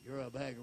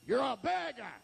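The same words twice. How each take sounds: First: Low, soft dismissal; hushed, low-pitched rebuke; low put-down. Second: Punched, rising put-down; acted heckler's jab; scornful rebuke. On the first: Acted. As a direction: drop it to a quiet aside. Same scorn repeated low. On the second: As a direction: throw it at him as a jeer. Crowd scorns the beggar, first take.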